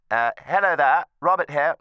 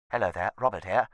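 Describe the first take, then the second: First: Louder booming greeting into the phone; projecting far too much at the receiver; talking loud. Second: Said in the usual way. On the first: Real, not acted. Retired judge introducing himself on the phone, too loud. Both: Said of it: "Sorry, I'm talking loud".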